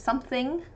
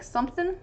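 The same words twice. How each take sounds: First: The ending is said fully with the ng sound. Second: The ending is clipped to a short in sound. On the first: "instead of" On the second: "dropping the ends of words a little bit"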